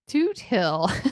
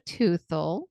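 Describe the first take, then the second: First: The t and h are said as separate sounds. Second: The t and h merge into a 'th' sound. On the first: The speaker calls it right. "It's actually Toot Hill" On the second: The speaker calls it wrong. "T H threw me off"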